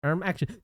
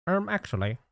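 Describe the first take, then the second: First: Nasal know-it-all "um, actually"; nerd voice. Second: Higher smug "um, actually"; nerd voice. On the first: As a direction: correct someone like a smug nerd. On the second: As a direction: play the pedantic nerd. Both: Pretend. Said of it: "Whenever I do the nerd voice".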